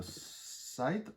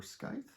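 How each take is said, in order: First: Scythe said "saɪθ", soft sc like sigh; Scythe as sighth. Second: Scythe said "skaɪθ", hard k sound; Scythe as skythe. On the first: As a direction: Scythe with a silent c, rhymes with writhe. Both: Shown as a demonstration. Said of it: "however you wanna pronounce it".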